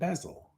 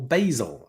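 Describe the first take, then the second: First: Basil is said with a non-American pronunciation. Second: Basil is said with an American pronunciation.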